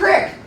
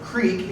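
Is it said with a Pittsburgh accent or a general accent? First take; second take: Pittsburgh; general. First: It is said in a Pittsburgh accent. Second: It is said in a general, non-Pittsburgh accent.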